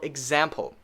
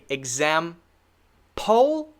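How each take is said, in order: First: The last syllable is a short, quick 'pull'. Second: The last syllable has a full 'pole' vowel. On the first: The speaker calls it right. "The second one is actually correct" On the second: The speaker calls it wrong.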